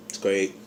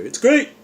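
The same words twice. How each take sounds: First: Said in the usual way. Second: Much higher cartoon mascot voice, rising; Tony the Tiger. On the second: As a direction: cereal mascot cheer, pitched way up. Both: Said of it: "Tony the Tiger".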